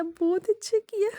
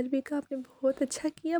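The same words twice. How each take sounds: First: Much higher, drawn-out बहुत अच्छा किया; gushing praise. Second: Said in the usual way. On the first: Retold or imitated. Husband gushing over his wife's surprise, high and stretched. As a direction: squeal the praise up high and slow. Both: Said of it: "ये मैं ऐसे बोल रही हूँ".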